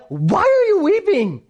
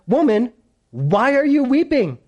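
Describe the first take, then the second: First: Very high, exaggerated disbelief; incredulous angels. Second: Raised, measured reading voice; scripture reading. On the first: Angels asking Mary at the tomb, incredulous. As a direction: ask it as if baffled, voice soaring. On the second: Acted. Preacher reading the angels' question to Mary, raised reading voice. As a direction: read the angels' question out, pitched up.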